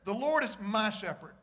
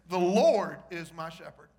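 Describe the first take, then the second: First: The stress is on the word my. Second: The stress is on the word Lord.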